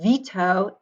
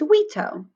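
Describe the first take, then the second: First: The word begins with a V sound. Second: The word begins with a W sound.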